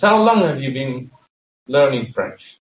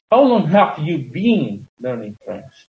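First: The stress falls on learning French. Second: The stress falls on have you been. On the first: The subject being learned is the key information. "The important things which are given emphasis in this sentence is learning French" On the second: The length of time spent learning is the focus. "if I want to emphasize the process of learning"

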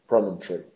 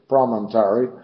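First: The weak second-to-last syllable drops, giving three. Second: All four syllables are pronounced. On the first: "exactamente como lo pronunciamos en inglés moderno" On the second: "pronunciado en americano de los Estados del Sur, promontory, ya con todas las sílabas"

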